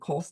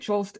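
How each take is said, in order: First: The surname is said a German-sounding way. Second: The surname is said the commonly used way. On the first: The name was changed to sound more German. "my grandfather changed the pronunciation to Kolst, so it would sound more German" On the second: This is how most people say the name. "most people say Cholst"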